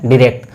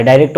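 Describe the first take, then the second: First: "डायरेक्ट" opening with a short "dih" sound; American pronunciation. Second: "डायरेक्ट" opening with a long "dye" sound; British pronunciation. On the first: Teacher shows students the American form, "डायरेक्ट" said dih-rekt. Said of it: "American English में होता है". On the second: Teacher shows students the British form, "डायरेक्ट" said dye-rekt. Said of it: "होता है British English में". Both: Shown as a demonstration.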